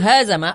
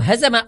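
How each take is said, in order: First: The first vowel is long. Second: The first vowel is short. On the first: They defeated each other. The speaker calls it wrong. "Allah saling mengalahkan dengan makhluknya" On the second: He defeated them. The speaker calls it right. "Allah mengalahkan"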